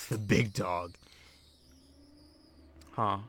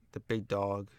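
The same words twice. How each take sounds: First: Slow, lower put-on "big dog". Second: Said in the usual way. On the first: Joker trying out a dog catchphrase, mock-deep and slow. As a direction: play up THE BIG DOG, drawn out and low. Repeats phrase in deeper, drawn-out voice.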